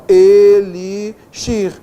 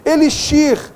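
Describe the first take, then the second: First: "elixir" stretched very slowly and louder; "elixir" said slowly and deliberately for students; drawn-out word. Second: Said in the usual way. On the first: Shown as a demonstration. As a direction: spell out "elixir" syllable by syllable, slow and loud. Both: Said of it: "Ok, ó".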